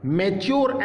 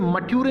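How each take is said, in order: First: The middle consonant is a ch sound. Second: The middle consonant is a plain t sound. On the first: The speaker calls it right. "च या चू की ध्वनि निकालिए" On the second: The speaker calls it wrong. "इसे मट्यूरे नहीं पढ़ेंगे"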